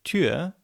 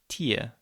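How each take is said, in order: First: The vowel is said with rounded lips. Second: The vowel is said with spread lips. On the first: "your lips are rounded" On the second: "with your lips wider and more spread"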